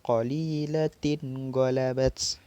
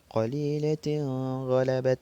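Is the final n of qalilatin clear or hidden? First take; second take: clear; hidden. First: The final n sound is pronounced clearly. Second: The final n sound is not clearly pronounced. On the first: The speaker calls it right. "maka dibaca izhar atau jelas" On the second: The speaker calls it wrong. "maka sa salah"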